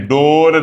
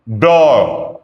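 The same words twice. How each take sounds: First: डोर said the plain Hindi way; the mistaken reading of डोर; wrong pronunciation. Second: डोर said with a retroflex ड and long open o; the correct English door, ड curled back; right pronunciation. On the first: Teacher showing students the wrong version, plain. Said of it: "डोर नहीं". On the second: Teacher modelling the English word, careful pronunciation. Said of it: "डोर इसकी pronunciation है". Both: Shown as a demonstration.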